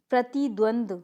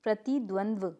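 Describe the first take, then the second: First: प्रतिद्वंद्व ending in "du", no final v; incorrect pronunciation. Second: प्रतिद्वंद्व ending in "dva"; correct pronunciation. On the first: Teacher showing a mistake, प्रतिद्वंद्व missing last v. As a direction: say प्रतिद्वंद्व as prati-dvand. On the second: Teacher correcting the class, प्रतिद्वंद्व with final v. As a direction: say प्रतिद्वंद्व as prati-dvan-dva. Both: Shown as a demonstration. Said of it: "ठीक है".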